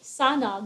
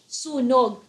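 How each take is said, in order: First: The first vowel sounds like 'uh'. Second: The first vowel sounds like 'oo'. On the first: The speaker calls it wrong. "You don't say sanog" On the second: The speaker calls it right. "that's spelled as S U N as in Nancy, O G, sunog"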